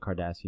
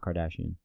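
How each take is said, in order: First: It sounds like the word Cardassian. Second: It sounds like the usual family name. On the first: The speaker calls it right. "I say Kardashian" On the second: The speaker calls it wrong. "not Kardashian"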